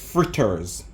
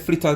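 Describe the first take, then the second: First: It is said in a standard accent. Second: It is said in a Jamaican accent.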